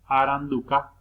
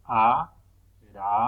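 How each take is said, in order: First: Said in the usual way. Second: "aranduca" slow, in separated syllables. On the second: Shown as a demonstration. Teacher showing which letters go together, "aranduca" syllable by syllable. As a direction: pause after each syllable of "aranduca". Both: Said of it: "Van juntas".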